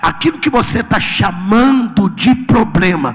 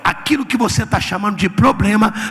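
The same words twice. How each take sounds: First: It is said slowly and deliberately. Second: It is said at normal speed.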